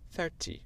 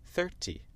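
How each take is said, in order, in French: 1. Accent britannique, le t est bien prononcé. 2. Accent britannique, le t est bien prononcé.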